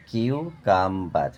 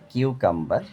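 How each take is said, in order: First: কিউকাম্বার as কিউ, কাম, বার; split in three syllables. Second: Said in the usual way. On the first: Shown as a demonstration. Teacher breaking a word for pupils, কিউকাম্বার in three parts. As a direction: give কিউকাম্বার three separate beats. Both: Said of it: "তিনবারে ভেঙে উচ্চারণ করা হয়".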